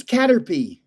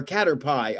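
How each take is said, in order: First: "Caterpie" as CAT-er-pee; Caterpie ending in "pee". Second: "Caterpie" as CAT-er-pie; Caterpie ending in "pie". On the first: Streamer unsure how to say the card's name, "Caterpie" ending in "pee". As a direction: say "Caterpie" with the last syllable like "pee". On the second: Streamer offering the other way to say it, "Caterpie" ending in "pie". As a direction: say "Caterpie" with the last syllable like the dessert "pie". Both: Shown as a demonstration. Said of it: "I don't know how you say it".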